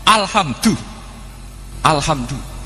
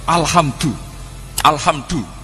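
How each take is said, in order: No difference in how they are said.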